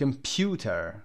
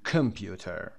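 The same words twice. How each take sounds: First: The first syllable is unstressed. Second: The first syllable is stressed. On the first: The speaker calls it right. "Remember that شوا is never stress. Like computer" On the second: The speaker calls it wrong. "هیچ وقت نمیگیم computer"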